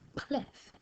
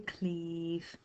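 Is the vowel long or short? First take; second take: short; long. First: The vowel is short and quick. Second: The vowel is drawn out long. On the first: The speaker calls it right. "very short vowel sounds" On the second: The speaker calls it wrong. "we don't say cleave"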